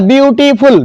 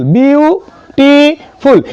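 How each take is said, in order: First: Said in the usual way. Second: ब्यूटीफुल split as byoo, tee, phool; ब्यूटीफुल higher, chopped into three drawn-out beats; three separate sounds. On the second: Shown as a demonstration. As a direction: say ब्यूटीफुल very slowly with a gap between parts. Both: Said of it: "तीन तरीके से आवाज आ रहा है".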